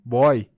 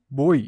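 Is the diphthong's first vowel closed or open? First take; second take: open; closed. First: The diphthong starts with an open vowel. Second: The diphthong starts with a closed vowel. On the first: The speaker calls it wrong. "e não" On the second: The speaker calls it right. "pois o ditongo é fechado"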